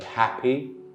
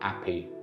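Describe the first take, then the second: First: The word begins with an h sound. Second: The word begins with no h sound.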